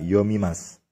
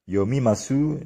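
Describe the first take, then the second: First: The final vowel is almost silent. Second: The final vowel is fully voiced.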